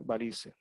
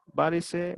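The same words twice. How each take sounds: First: "varice" stressed on the middle syllable, va-RI-ce; softer "varice" with stress on RI; acento ambiguo, sin tilde. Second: "varice" stressed on the first syllable, VÁ-ri-ce; higher-pitched "varice" with stress up front; acento ambiguo, con tilde. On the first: («varice» con acento en la segunda sílaba) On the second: («varice» con acento en la primera sílaba: várice) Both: Shown as a demonstration. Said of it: "con o sin acento".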